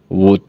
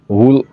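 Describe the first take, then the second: First: The L sound is silent in the word. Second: The L sound is pronounced in the word. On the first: The speaker calls it right. "a pronunciation chu would ti tur ani" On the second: The speaker calls it wrong. "W O U L D hi wool ani lo"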